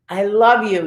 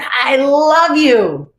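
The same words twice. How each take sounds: First: Said in the usual way. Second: Slow, high, louder I love you, stretched out; heartfelt affirmation. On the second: Shown as a demonstration. Leading the group in self-love, a slow heartfelt I love you. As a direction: pour feeling into the words I love you. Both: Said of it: "Repeat after me".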